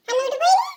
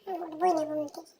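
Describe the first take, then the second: First: Louder stubborn refusal; child loudly refusing to get up; stubborn declaration. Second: Low, soft, quick grumble; child muttering refusal under breath; sulky mutter. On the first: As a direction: announce it defiantly. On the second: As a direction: mumble it stubbornly. Child mutters then declares loudly. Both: Acted.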